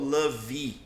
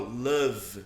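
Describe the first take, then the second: First: An extra vowel sound follows the final V. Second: The word ends cleanly on the V sound. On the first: The speaker calls it wrong. "Eu não falo love" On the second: The speaker calls it right. "eu falo love, né? Eu paro no V"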